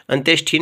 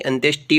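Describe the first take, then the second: First: अंत्येष्टि with a puff of air in "thi"; aspirated th. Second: अंत्येष्टि with a hard retroflex "ti"; unaspirated t. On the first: Teacher repeating the faulty form, अंत्येष्टि with aspirated ending. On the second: Teacher repeating the correction, अंत्येष्टि with tamatar t. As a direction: say अंत्येष्टि as "antyesh-ti". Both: Shown as a demonstration. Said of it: "टैसे टमाटर वाला आता है".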